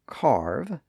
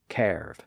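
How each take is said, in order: First: The vowel is an 'ar' sound. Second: The vowel is an 'er' sound. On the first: This is the modern pronunciation. "kept the newer R sound" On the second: This is the older pronunciation. "previously carve"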